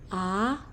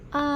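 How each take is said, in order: First: The pitch rises like a question. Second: The pitch stays flat and level throughout. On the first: "Nada dua tuh naik seperti orang bertanya" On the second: "nada satu itu datar"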